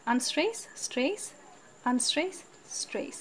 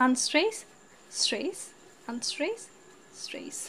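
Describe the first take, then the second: No difference in how they are said.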